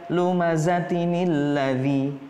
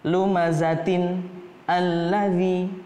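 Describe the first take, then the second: First: The words are joined by a 'ni' before 'lladzi'. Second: The two words are kept apart without a joining 'ni'.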